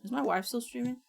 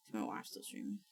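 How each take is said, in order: First: Said in the usual way. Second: Unvoiced whispered question. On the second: Real, not acted. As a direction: breathe it out without voice.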